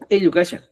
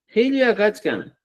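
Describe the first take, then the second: First: It is said in the Cusco way, without h. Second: It is said in the Chanka way, with h.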